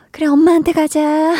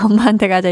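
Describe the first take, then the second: First: Higher, gentle coaxing voice; high reassuring voice handing the crying kid back to mom; soothing a crying child. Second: Quick, amused repeat; fast laughing aside handing the kid back to mom; laughing through it. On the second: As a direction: chuckle as you say it again. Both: Retold or imitated. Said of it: "이렇게 바로 되는데".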